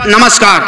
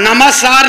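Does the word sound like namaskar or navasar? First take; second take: namaskar; navasar. First: The word is said clearly as namaskar. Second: The word is garbled, sounding like navasar. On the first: The speaker calls it right. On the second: The speaker calls it wrong. "नमस्कार नहीं"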